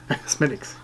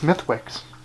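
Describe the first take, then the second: First: The name is said as 'Smittix' without 'th'. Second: The name is said with 'th' and 'w' sounded. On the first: The speaker calls it right. "That's not how you say it" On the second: The speaker calls it wrong. "I used to pronounce this Smithwicks"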